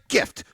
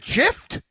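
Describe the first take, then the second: First: The word begins with a hard g sound. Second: The word begins with a soft j sound. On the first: The speaker calls it right. "it's a gift" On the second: The speaker calls it wrong. "is it a gift? No"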